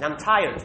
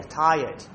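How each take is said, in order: First: "tired" with the R sounded; "tired" as a learner saying the written R. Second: "tired" with a Y in place of the R; "tired" as an English teacher models it, R-less; tired without R. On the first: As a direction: say "tired" keeping an audible R before the D. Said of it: "forget the R". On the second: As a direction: say "tired" like "tie-yed", R dropped. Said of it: "Imagine there's a Y there". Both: Retold or imitated.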